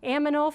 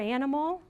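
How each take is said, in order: First: The m and n sounds are swapped. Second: The n and m sounds are in order. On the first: The speaker calls it wrong. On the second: The speaker calls it right.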